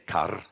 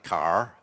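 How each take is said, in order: First: The word ends with a trilled R sound. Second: The word ends with a smooth R sound. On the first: The speaker is from the Welsh side of town. "like in Welsh, with an r, with a trill sound like that" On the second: The speaker is from the English side of town. "like the West Country speak"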